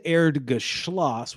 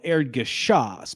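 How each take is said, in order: First: "Erdgeschloss" with an L slipped in after the sh; "Erdgeschloss", the last syllable beginning shl; mistaken German word. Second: "Erdgeschoss" with a plain sh and no L in the last syllable; "Erdgeschoss", the last syllable said without an L; correct German word. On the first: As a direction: say "Erdgeschloss" slowly, ending in -shloss. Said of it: "but I said Erdgeschloss". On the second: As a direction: say "Erdgeschoss" slowly, ending in -shoss. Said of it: "the ground floor is called Erdgeschoss". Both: Shown as a demonstration.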